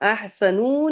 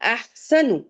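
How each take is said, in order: First: The final vowel is drawn out long. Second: The final vowel is kept short. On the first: The speaker calls it wrong. "खींचेंगे नहीं, अहसनू नहीं पढ़ेंगे" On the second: The speaker calls it right. "नून पे पेश है, खींचेंगे नहीं"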